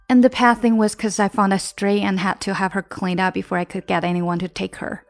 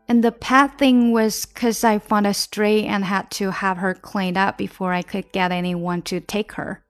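First: The sentence is said at a very fast pace. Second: The sentence is said at a moderately quick pace. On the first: "我们再快一点啊。" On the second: "再快一点吧。"

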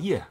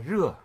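First: The word begins with a Y sound. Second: The word begins with a standard R sound.

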